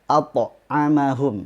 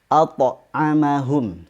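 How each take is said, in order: Both takes have the same delivery.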